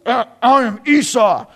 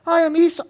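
First: Louder, put-on big-brother voice; disguised son. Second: Lightly voiced high-pitched impostor; high, put-on claim to be the brother; deceiving son. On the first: Jacob poses as his hairy brother, disguising his voice loudly. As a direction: redo the false claim in a louder disguised voice. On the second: Jacob poses as his brother to his blind father, high-voiced.

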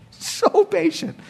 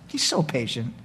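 First: So patient stretched slow and high; so patient said slowly, pitched up; drawn-out so patient. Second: Said in the usual way. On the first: Shown as a demonstration. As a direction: linger on so patient in wonder.

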